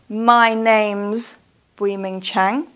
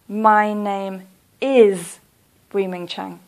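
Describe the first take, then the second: First: The words 'name is' are contracted to 'name's'. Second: The words 'name is' are said in full. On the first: The speaker calls it right. "I want you to use the contraction, "my names."" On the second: The speaker calls it wrong. "please don't say"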